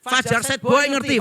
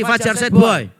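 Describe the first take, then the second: First: Said in the usual way. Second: Louder mock call-out. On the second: Shown as a demonstration. Preacher teasing the congregation about slang, in a louder mock call-out. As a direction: shout the name out to the congregation. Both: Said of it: "Wajah-wajahnya ya loh".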